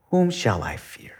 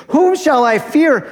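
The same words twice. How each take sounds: First: Soft unvoiced whisper, falling. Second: Much higher, louder, ringing out; proclaimed. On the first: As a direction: hush it like a private question. Quoting psalm, then repeated loudly. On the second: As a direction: shout it as a bold declaration. Same psalm line repeated proclaimed. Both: Shown as a demonstration.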